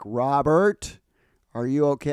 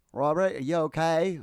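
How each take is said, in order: First: Put-on calling loudly through a door, no accent; loud call into the men's room; retold yell. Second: Slow, higher attempt at an Australian accent; a self-admittedly poor Australian accent; bad Australian accent. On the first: Lady yelling into the bathroom for Robert, loud call. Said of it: "there's a lady yelling into the bathroom". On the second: Retelling the lady's call in a weak Australian accent. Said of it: "I can't do Australian accents".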